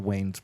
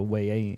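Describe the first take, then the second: First: The name is said as one syllable. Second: The name is said with an extra syllable. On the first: "I think it's just Wayne's" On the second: "you're adding an A's at the end"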